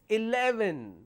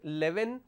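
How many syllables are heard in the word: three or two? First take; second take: three; two. First: All three syllables are pronounced. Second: The first syllable is dropped, giving two syllables. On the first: The speaker calls it right. "it's eleven. A, le, ven" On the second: The speaker calls it wrong. "It's not eleven"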